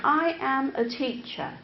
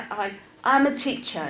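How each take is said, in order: First: Every word separate in "I am a teacher"; reciting, not speaking. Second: Said in the usual way. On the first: Shown as a demonstration. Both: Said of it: "That's not speaking".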